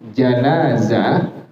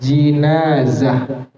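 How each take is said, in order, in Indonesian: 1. Vokal pertama adalah bunyi 'a'. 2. Vokal pertama adalah bunyi 'i'. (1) "apabila dibaca dengan fathah jim" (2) "dengan kasrah dibacanya"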